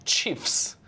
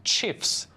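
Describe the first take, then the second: No difference in how they are said.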